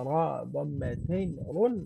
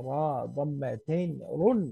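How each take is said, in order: No difference in how they are said.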